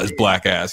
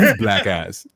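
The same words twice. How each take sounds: First: It is said in the speaker's own plain voice. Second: It is said in an imitated, put-on voice. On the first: The speaker calls it wrong. "that's funnier than like" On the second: The speaker calls it right. "you have to say them in his voice"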